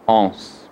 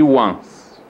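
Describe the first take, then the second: First: It begins with a plain o vowel. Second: It begins with a w sound. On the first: The speaker calls it wrong. "nem falo ons" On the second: The speaker calls it right. "Eu falo one e once"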